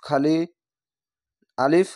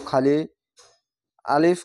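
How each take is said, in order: Both takes have the same delivery.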